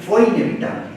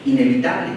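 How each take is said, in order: First: "fue" raised and punched before "inevitable"; stress on fue. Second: Said in the usual way. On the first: Shown as a demonstration. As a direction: hit the word "fue" higher. (acento fuerte en "fue", más agudo)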